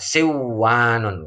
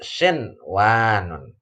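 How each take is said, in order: First: The n merges into the following w sound. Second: The n is pronounced clearly before the w. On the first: The speaker calls it wrong. "enggak siwanun, enggak" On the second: The speaker calls it right. "nunnya jelas"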